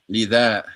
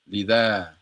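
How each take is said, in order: No difference in how they are said.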